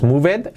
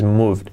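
First: "moved" as MOO-ved, rising; the mistaken "moved" with an extra syllable; wrong two-syllable pronunciation. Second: "moved" as MOOVD, falling tone; correct one-syllable pronunciation. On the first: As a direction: sound the E in "moved", like a learner's mistake. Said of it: "No es moved". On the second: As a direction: say "moved" with a silent E. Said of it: "es moved". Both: Shown as a demonstration.

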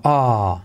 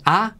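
First: "a" darkened towards a short O; English cup vowel. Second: "a" as a clear open Spanish vowel. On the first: Teacher correcting the vowel, "a" rounded towards "o". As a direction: say "a" like the vowel in "some". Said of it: "sino a". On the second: Teacher showing the wrong vowel, "a" fully open. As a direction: say "a" wide open, questioning rise. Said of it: "No es a". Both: Shown as a demonstration.

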